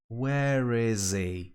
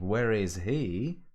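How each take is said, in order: First: The H at the start of 'he' is dropped. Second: The H at the start of 'he' is pronounced. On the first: The speaker calls it wrong. "some people say it like" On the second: The speaker calls it right. "Instead of where is he"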